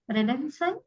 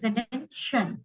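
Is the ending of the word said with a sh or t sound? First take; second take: t; sh. First: The ending is said with a t sound. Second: The ending is said with a sh sound. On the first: The speaker calls it wrong. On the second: The speaker calls it right. "T I O is generally the sh of Hindi"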